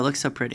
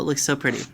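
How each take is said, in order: First: It is said in the speaker's natural, ordinary voice. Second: It is said in a strained, put-on character voice.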